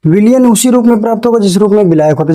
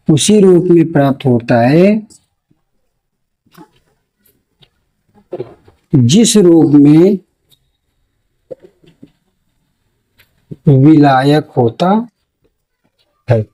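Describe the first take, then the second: First: Brisk, higher-paced run through the sentence; whole sentence in one quick sweep; quick read-back. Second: Very slow, stretched words with long pauses; slow dictation. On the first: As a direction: repeat it fast without pauses. Repeats dictated sentence in a run. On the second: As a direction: dictate phrase by phrase for note-taking. नोट में. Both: Shown as a demonstration.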